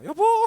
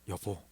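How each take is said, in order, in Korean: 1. 높고 밝은 목소리로 말해요. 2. 낮고 진지한 목소리로 말해요. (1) "이런 식으로 톤을 올려서 밝게" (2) "이렇게 낮은 목소리로 여보 이렇게 말을 하면"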